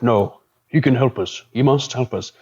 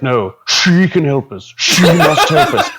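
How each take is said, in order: First: The pronoun is said at normal volume. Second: The pronoun is said very loudly.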